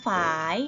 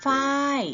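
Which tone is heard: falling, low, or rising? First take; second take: rising; falling. First: The word is said on a rising tone. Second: The word is said on a falling tone. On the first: "เสียงจัตวาค่ะเราต้องเติมไม้จัตวาไหมไม่ต้องเติม" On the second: "เติมไม้โทลงไปจะเป็นฝ้าย"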